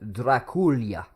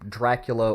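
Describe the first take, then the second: First: The name is said with a Romanian pronunciation. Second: The name is said with an English pronunciation. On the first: "is how it's actually pronounced. That's the Romanian uh, way to pronounce uh, Dracula" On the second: "It's just easier"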